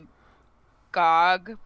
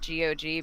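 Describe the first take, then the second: First: The name is said as one word. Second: The name is said as separate letters. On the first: The speaker calls it wrong. "I've called it G O G" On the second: The speaker calls it right. "more correct calling it G O G because it stands for"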